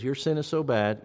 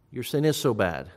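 First: Said in the usual way. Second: "is" stressed to affirm it. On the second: Shown as a demonstration. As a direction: lean on the word "is". This passage is arguing the opposite.

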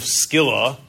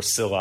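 First: "Scylla" said with a hard k, SKILL-uh; hard-c pronunciation. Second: "Scylla" said with a silent c, SILL-uh; soft-c pronunciation. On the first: Preacher naming the myth's rocks, "Scylla" said SKILL-uh. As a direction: say "Scylla" as SKIL-la, k sounded. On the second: Preacher unsure of the name, offering "Scylla" as SILL-uh. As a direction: say "Scylla" as SIL-la, no k. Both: Shown as a demonstration. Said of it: "I don't know how to say".

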